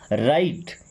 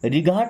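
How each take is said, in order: First: It is said with no 'g' sound. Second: It is said with a hard 'g' sound. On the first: The speaker calls it right. "जब भी जी एच T आएगा तो जी एच silent हो जाएगा" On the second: The speaker calls it wrong. "रिघाट नहीं पढ़ते"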